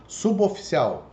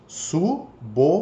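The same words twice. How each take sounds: First: Said in the usual way. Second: "suboficial" split slowly into su-bo-fi-ci-al, a pause after each syllable. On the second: Shown as a demonstration. Teacher showing students the syllable division, "suboficial" said slowly piece by piece. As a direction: break "suboficial" into separate, evenly spaced syllables. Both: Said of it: "ele entrou junto na separação".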